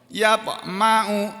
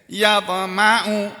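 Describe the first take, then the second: No difference in how they are said.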